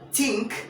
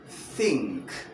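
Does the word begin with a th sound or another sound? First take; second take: another sound; th sound. First: The word begins without a th sound. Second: The word begins with a th sound. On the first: The speaker calls it wrong. "I do not say" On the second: The speaker calls it right. "but rather think. The theta sound"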